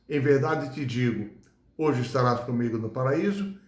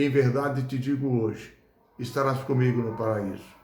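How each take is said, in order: First: The pause comes before hoje. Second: The pause comes after hoje.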